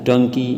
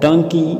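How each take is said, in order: First: Said in the usual way. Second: High loud taunting shout; group shouting an insult. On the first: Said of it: "the voice replied". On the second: A narrator's reading. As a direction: yell the insult down the well. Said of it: "Together they shouted".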